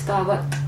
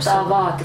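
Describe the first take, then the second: First: The 'a' vowel is kept short. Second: The 'a' vowel is drawn out long. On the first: The speaker calls it right. "It's tavat" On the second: The speaker calls it wrong. "It's not tavat, right?"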